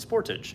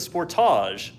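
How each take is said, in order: First: The name is said the American way. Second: The name is said the Canadian way. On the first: This is how it is named in the States. "not the Sportage" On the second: This is how it is named outside the States. "in Canada and many other parts of the world, they call this the Sportage"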